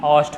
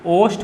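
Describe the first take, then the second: First: औष्ठ said with a broad au vowel; the wrong form औष्ठ, open au. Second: ओष्ठ said with a plain o vowel; short o in ओष्ठ, not au; right vowel o. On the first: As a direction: mistaken औष्ठ with au. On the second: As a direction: correct ओष्ठ. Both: Shown as a demonstration. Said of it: "ना कि औष्ठ होता है".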